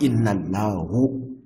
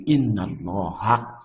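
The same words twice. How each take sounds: First: "Allahu" ending on a rounded u, shown as the wrong form. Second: "Allaha" ending on a clear open a, after inna; correct Allaha ending. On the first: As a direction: say "inna Allahu" with the final u, as the mistake. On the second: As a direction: say "inna Allaha" with the final a, not u. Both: Shown as a demonstration. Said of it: "not inna Allahu".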